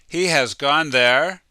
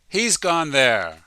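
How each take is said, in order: First: He has is said as two full words. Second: He has is squeezed into one short syllable.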